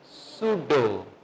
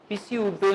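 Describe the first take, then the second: First: The word begins directly with an S sound. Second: The word begins with an audible P sound. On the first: The speaker calls it right. "इसको पढ़ेंगे सुडो" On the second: The speaker calls it wrong. "नहीं पढ़ेंगे"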